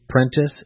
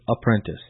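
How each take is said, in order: First: The word begins without the 'a' sound. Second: The word begins with a full 'a' sound. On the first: "you drop the A because of being lazy in your speech" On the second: "instead of apprentice"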